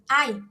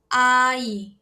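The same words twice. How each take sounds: First: The first vowel A is stressed more strongly. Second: Both vowels are given equal stress. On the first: The speaker calls it wrong. "quem fica mais evidente, o A ou o I? ... é a vogal A" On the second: The speaker calls it right. "as duas a gente vai tentar equilibrar"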